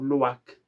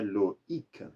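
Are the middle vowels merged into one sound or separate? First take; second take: merged; separate. First: The middle vowels merge into one sound. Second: The middle vowels are said as separate sounds. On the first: The speaker calls it wrong. "para não fazer um loac" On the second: The speaker calls it right. "Então é Loïc"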